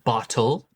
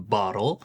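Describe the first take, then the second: First: The middle T is a crisp, full T. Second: The middle T is a soft, D-like flap.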